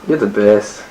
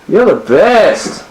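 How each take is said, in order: First: It is said at normal, softer volume. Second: It is said louder.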